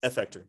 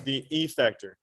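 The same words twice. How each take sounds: First: "effector" with a weak uh start, ə-FEK-tor; usual pronunciation. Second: "effector" with a flat a, like "a-FAK-tor"; odd pronunciation. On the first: Teacher showing how people really say "effector". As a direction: say "effector" casually, quiet and low. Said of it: "they say". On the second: Teacher saying "effector" her own way for the class. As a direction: say "effector" with a short a sound. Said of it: "Nobody pronounces it like I just did". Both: Shown as a demonstration.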